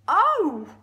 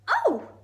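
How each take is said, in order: First: It is said in a big, deep voice. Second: It is said in a high-pitched voice.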